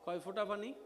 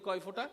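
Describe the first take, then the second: First: It is said at normal volume. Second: It is said louder.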